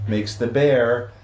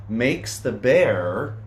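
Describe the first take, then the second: First: Said in the usual way. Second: Slow, drawn-out build with a rising end; suspenseful pause. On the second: A narrator's reading. Building suspense for the kids before the sneeze, slow. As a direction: hold them hanging before the sneeze.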